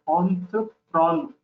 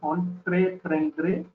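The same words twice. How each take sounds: First: It is pronounced with French sounds. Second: It is pronounced with English sounds. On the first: The speaker calls it right. "but entreprendre" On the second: The speaker calls it wrong. "So it's not entreprendre"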